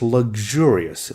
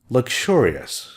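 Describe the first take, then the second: First: The middle sounds like g then j. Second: The middle sounds like k then ch. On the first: "The American pronunciation is g here and j here" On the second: "British say luxurious. Sounds like a k and ch"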